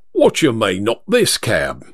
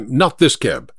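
First: Offended cabbie. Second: Said in the usual way. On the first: Acted. Driver challenges the passenger's refusal, offended. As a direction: throw the refusal back in a cabbie's voice.

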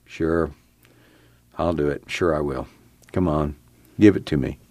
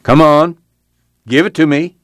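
First: Softer and lower, resigned; quiet giving in. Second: Higher and louder, breaking out; voice rising. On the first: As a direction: murmur it, almost to himself. Giving in before voice rises. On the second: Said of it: "His voice began to rise". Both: A narrator's reading.

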